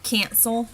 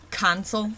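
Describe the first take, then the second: First: "cancel" with an American eh-like a; front, raised a in "cancel"; eh sound. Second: "cancel" with an open ah, no eh sound. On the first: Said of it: "There's no eh sound in it". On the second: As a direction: say "cancel" as cahn-sel. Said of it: "not cancel". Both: Shown as a demonstration.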